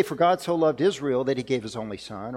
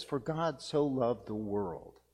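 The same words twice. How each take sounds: First: Said in the usual way. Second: Slow and softer, leaning on "so loved the world"; slow, softer emphasis on the world. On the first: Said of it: "It doesn't say". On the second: Shown as a demonstration. Preacher to congregation, correcting the verse, slow and softer. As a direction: drop the voice and slowly savour "the world". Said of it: "No, it says".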